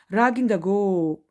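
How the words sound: The last word is one drawn-out syllable. "в более таком э, северных районах Грузии по-другому скажут"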